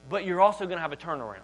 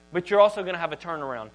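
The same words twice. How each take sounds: The two takes are said the same way.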